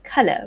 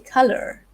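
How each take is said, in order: First: The final R sound is dropped. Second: The final R sound is pronounced strongly. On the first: "without the R sound" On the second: "they might say the R word strongly"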